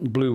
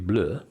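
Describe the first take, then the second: First: It is said with an English pronunciation. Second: It is said with a French pronunciation. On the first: "I'm sure they don't pronounce it like that" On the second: "blue would be bleu"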